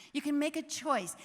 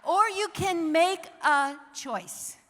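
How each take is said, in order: First: Said in the usual way. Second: Slow and louder, leaning on each word; slow, emphatic. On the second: Shown as a demonstration. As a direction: make every word land.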